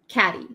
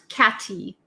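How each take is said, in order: First: The middle consonant is a soft, D-like flap. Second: The middle consonant is a crisp, hard T. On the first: The speaker calls it right. "it's like a D almost" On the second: The speaker calls it wrong. "Not catty"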